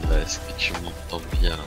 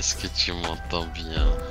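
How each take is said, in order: First: The voice has poorer audio quality. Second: The voice has better audio quality. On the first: The speaker calls it wrong. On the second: The speaker calls it right.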